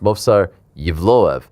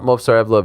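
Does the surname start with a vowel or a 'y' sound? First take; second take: 'y' sound; vowel. First: The surname starts with a 'y' sound. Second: The surname starts directly with a vowel sound. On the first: The speaker calls it right. "it's Movsar Yevloev" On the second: The speaker calls it wrong. "It's not Movsar Evloev"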